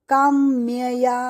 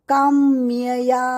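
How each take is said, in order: No difference in how they are said.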